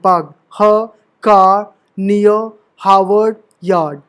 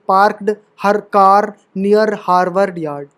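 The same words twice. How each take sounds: First: The r sounds are dropped after vowels. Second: The r sounds are clearly pronounced throughout. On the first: "British accent देखो ... तो आर इस तरीके से silent है" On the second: "American उस पर बोलोगे एक्सेंट पे तो ये आर आएगा"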